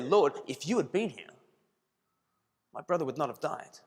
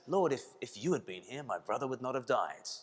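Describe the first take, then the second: First: It is said in a reproachful, accusing tone. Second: It is said in a trusting, confident tone. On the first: The speaker blames the listener for failing them. "That's quite a different way of saying it" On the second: The speaker trusts fully in the listener's power. "a statement of great faith, a statement of great confidence"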